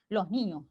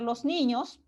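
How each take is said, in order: First: The s of los is dropped entirely. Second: The s of los is fully pronounced. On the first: "incluso simplemente elidir" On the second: "en algunos casos podemos pronunciar los niños"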